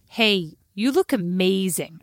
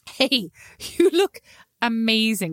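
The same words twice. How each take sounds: First: It is spoken in an American accent. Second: It is spoken in a non-American accent. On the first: The speaker calls it wrong. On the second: The speaker calls it right.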